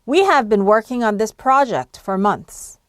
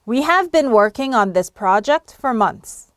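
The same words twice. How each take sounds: Both takes have the same delivery.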